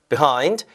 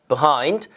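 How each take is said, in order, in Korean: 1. 첫 음절은 약화되고, 강세는 두 번째 음절에 있어요. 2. 첫 음절은 약화되고, 강세는 두 번째 음절에 있어요.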